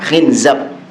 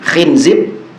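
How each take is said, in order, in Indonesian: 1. Suku kata terakhir memiliki vokal 'a'. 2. Suku kata terakhir memiliki vokal 'i'. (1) "bisa khinzab" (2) "Bisa khinzib pakai ba"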